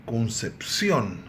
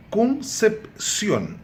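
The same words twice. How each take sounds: First: Said in the usual way. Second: "Concepción" broken into three separate syllables, very slow; teacher chopping "Concepción" slowly into its syllables. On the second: Shown as a demonstration. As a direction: split "Concepción" as con, cep, ción with clear pauses. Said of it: "dividir a palavra em sílabas".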